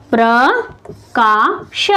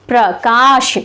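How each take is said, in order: First: प्रकाश very slowly as three separate sounds, प्र, का, श; split into syllables. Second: प्रकाश in two close parts, प्र-काश; joined-up word. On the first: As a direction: leave a gap after each part of प्रकाश. (प्रकाश के हर अक्षर को अलग-अलग, धीरे बोलें) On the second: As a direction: join का and श in प्रकाश. (प्रकाश को जोड़कर बोलें: प्र-काश) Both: Shown as a demonstration. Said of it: "इस तरह से हम इसको तोड़ सकते हैं".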